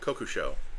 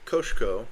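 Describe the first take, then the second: First: The name is said as Kokusho. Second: The name is said as Koshko. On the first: The speaker calls it right. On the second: The speaker calls it wrong.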